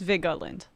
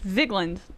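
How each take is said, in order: First: The middle E is pronounced, giving three syllables. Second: The middle E is skipped, giving two syllables.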